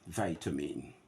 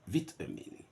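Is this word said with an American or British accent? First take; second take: American; British. First: It is said in an American accent. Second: It is said in a British accent. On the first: "G A" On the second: "R P"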